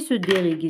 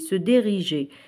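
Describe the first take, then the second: First: The g is a hard sound, like in go. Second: The g is a soft sound, like the j in jour. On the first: The speaker calls it wrong. "ماشي سو ديريغي" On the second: The speaker calls it right. "يعني حنزيد هنا او باش هذا يولي ينطق جي"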